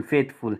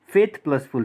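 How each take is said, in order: First: Said in the usual way. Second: "faith plus full" said as two separate parts, faith then full; split into parts. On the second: Shown as a demonstration. Teacher splitting the word for the class, part by part.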